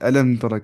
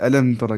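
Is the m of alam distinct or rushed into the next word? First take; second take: rushed; rushed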